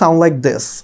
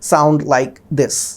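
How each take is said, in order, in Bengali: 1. সংযুক্ত কথায় শব্দগুলো একসাথে মিশে যায়। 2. শব্দগুলো আলাদা আলাদাভাবে বের হয়, ভেঙে ভেঙে। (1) "নেটিভ স্পিকাররা এইভাবেই কথা বলে" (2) "ভেঙে ভেঙে আসে"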